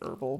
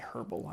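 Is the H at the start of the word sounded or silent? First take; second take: silent; sounded. First: The word begins without any H sound. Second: The word begins with a sounded H. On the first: The speaker calls it wrong. "I don't like to say herbal because it's like there's an H there" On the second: The speaker calls it right. "I like to say herbal"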